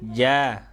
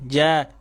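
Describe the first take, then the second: First: The syllable is released slowly and gently. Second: The syllable is released quickly and abruptly. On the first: The speaker calls it right. "Pelan-pelan. Nih" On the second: The speaker calls it wrong.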